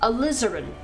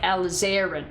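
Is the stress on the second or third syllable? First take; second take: second; third. First: The stress is on the second syllable. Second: The stress is on the third syllable. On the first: The speaker calls it right. "the intonation is on the I rather than on the, oh, the second A" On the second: The speaker calls it wrong. "I usually say it like alizarin"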